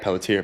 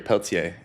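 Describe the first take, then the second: First: It is said with a plain English accent. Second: It is said with a French accent.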